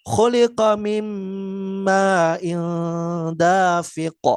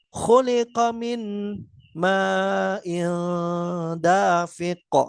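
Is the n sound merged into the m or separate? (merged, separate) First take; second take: merged; separate. First: The n sound merges into the following m, nasalized. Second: The n sound is pronounced separately before the m. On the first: The speaker calls it right. "tetap uh, dibaca dengan dengung" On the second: The speaker calls it wrong. "Jadi bukan dengan membaca terpisah"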